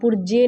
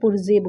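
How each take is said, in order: First: The middle consonant is a hard 'j' sound. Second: The middle consonant is a soft 'zh' sound. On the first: The speaker calls it wrong. "पुर्जे नहीं बोलेंगे" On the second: The speaker calls it right. "बल्कि पुर्जे बोलेंगे"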